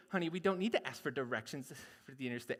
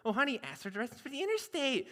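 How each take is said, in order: First: Lower, softer, fast grumbling reply; stubborn husband. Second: Fast, lightly Midwest nagging at honey; Midwest wife. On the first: Husband refusing to ask directions, low grumble. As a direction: brush her off, low and quick. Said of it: "do all the dialogue". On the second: Wife urging husband to ask directions, Midwest. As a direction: nudge your husband, Minnesota style. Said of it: "has the most Midwest accent". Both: Acted.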